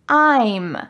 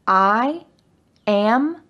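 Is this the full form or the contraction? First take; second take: contraction; full form. First: One contracted syllable is said, 'I'm'. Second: Two separate words are said, 'I am'.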